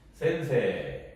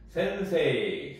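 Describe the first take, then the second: First: The word ends with a lengthened 'e' sound. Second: The word ends with a separate 'i' sound. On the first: The speaker calls it right. "여기 이제 장음처럼 발음이 됩니다" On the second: The speaker calls it wrong. "센세이 이렇게 이렇게 발음하지 않고요"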